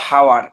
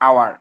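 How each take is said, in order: First: The word begins with an h sound. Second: The word begins with a vowel sound. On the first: The speaker calls it wrong. "উচ্চারণটা হওয়ার কথা ছিল হাওয়ার" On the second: The speaker calls it right. "এইচ এর উচ্চারণটা আসলে এখানে silent থাকে"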